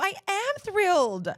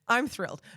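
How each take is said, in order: First: It is said in a warm, sincere tone. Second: It is said in a flat, insincere tone. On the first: The speaker is genuinely happy. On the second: The speaker is not really happy. "when something's not fine, they're like, I'm fine"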